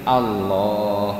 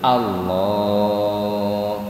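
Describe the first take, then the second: First: The word is said short, not drawn out. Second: The word is drawn out with a long vowel. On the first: The speaker calls it wrong. "Bukan begini" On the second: The speaker calls it right. "dipanjangkan Allahnya"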